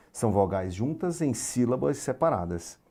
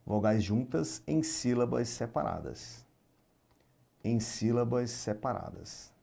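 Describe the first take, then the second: First: Said in the usual way. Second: Slow dictation. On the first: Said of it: "definition restated at normal pace". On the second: Shown as a demonstration. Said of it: "teacher repeats definition slowly".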